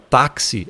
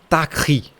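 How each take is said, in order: First: The middle consonant is a ks sound. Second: The middle consonant is a raspy German ch. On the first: The speaker calls it wrong. "essa letra aqui não tem som de xi" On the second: The speaker calls it right. "Ela vai ter som de ri alemão"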